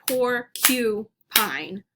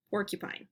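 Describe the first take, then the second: First: "porcupine" as por, KYOO, pine; slow syllables with a clear "kyoo" in "porcupine"; own pronunciation, split. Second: Said in the usual way. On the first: Shown as a demonstration. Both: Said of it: "I say porcupine".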